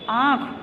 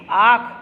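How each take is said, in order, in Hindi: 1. स्वर अनुनासिक है, हवा नाक से निकलती है। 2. स्वर सामान्य है, इसमें कोई नासिक ध्वनि नहीं है। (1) "इसका प्रयोग वर्णों के ऊपर चंद्र बिंदु के रूप में होता है" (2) "अब हम अगर चंद्र बिंदु नहीं लगाएंगे तो इसको कैसे बोलेंगे"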